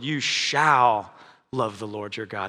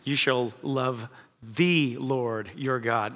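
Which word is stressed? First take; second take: shall; Lord. First: The stress is on "shall". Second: The stress is on "Lord".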